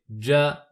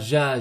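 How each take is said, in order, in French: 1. Le j commence par un petit son d. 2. Le j est doux, sans d devant. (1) "mais c'est ja" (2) "c'est pas ja"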